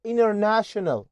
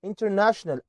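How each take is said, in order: First: "international" with the T dropped, as "innernational"; American-style "international", no T after the N; silent T. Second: "International" with the T clearly sounded; careful "in-ter-national"; T pronounced. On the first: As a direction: run N straight into the vowel in "international". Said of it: "ما تتنطقش". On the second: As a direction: say "International" with a full T after the N. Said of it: "من أكتر الحروف اللي لو جت في نص الكلمة ممكن". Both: Shown as a demonstration.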